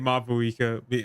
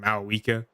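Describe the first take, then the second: First: The name is said with a clear V sound. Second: The name is said without a V sound. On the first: The speaker calls it right. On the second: The speaker calls it wrong.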